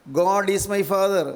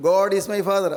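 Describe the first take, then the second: First: Each word drawn out very slowly, "God is my father"; slow teaching model. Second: Said in the usual way. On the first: Retold or imitated. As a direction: spell out "God is my father" slowly for a child to copy. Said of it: "മോൻ ഇങ്ങനെ പറയൂ". (കുട്ടിക്ക് ഏറ്റുപറയാൻ വളരെ പതുക്കെ) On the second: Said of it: "പറയൂ".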